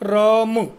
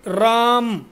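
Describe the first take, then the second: First: The lips close and reopen on a final vowel. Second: The word ends with the lips closed on m. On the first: The speaker calls it right. "वास्तव में शुद्ध उच्चारण राम, होठ को बंद करके खोलना है" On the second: The speaker calls it wrong. "हम लोग ऐसा उच्चारण करते हैं"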